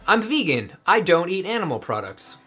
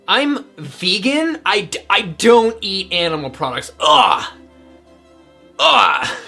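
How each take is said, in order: First: It sounds calm and diplomatic. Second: It sounds scornful and provoking.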